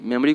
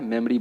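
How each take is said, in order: First: Second मेमोरी with a full o; मेमोरी in three full syllables; wrong pronunciation. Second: मेमोरी as "mem-ri"; मेमोरी squeezed to two syllables; correct pronunciation. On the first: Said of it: "जो तरीका गलत है". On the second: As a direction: say मेमोरी without the o. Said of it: "क्या बोलना है?". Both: Shown as a demonstration.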